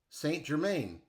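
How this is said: The name is said with an American pronunciation. "Americans might say"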